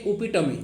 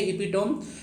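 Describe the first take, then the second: First: The word ends with a 'tuh-mee' sound. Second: The word ends with a 'tohm' sound. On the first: The speaker calls it right. "इसको उपिटम बोलते हैं" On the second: The speaker calls it wrong. "लेकिन इपिटोम इसको नहीं पढ़ते हैं"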